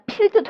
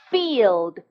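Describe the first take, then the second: First: It starts with a P sound and a short vowel. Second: It starts with an F sound and a long vowel. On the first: The speaker calls it wrong. "일단 필드도 아니고요. F 발음이고요" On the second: The speaker calls it right. "F 발음이고요. 길게 E 하시는 거 잊지 마세요"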